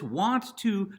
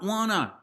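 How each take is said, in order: First: Both words are said fully and separately. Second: The words are blended into one reduced word. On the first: The speaker calls it right. "it's want to" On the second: The speaker calls it wrong. "not wanna"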